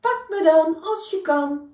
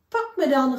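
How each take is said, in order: First: Much higher, louder mocking taunt; a shrew daring the bear to catch him; teasing shrew, louder. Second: High, loud teasing call; a cheeky little shrew calling out. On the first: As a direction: shout the dare, higher and louder. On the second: Acted. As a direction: taunt him playfully, higher and louder. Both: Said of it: "riep Siem".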